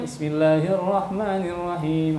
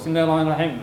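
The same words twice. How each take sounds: First: It is recited at a moderate pace. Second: It is recited at a fast pace.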